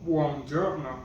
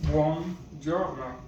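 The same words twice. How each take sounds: First: Said in the usual way. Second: Buongiorno drawn out slowly, each syllable clear; slow clear demo. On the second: Shown as a demonstration. Teacher repeating buongiorno for the class, slowly and clearly. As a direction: spell out buongiorno slowly for learners. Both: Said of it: "good morning is".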